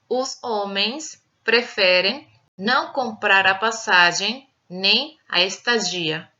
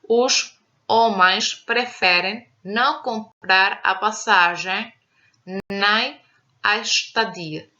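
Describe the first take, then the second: First: It is read in a Brazilian Portuguese accent. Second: It is read in a European Portuguese accent. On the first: "Leitura na variante brasileira" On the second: "Leitura na variante europeia"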